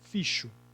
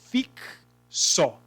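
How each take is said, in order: First: The X is sounded as sh. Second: The X is sounded as ks. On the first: The speaker calls it wrong. "Ele tem som de C H? Não, senão seria ficho" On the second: The speaker calls it right. "Ele tem som de K S? Tem"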